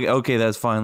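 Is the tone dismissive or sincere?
dismissive. It sounds dismissive and grudging.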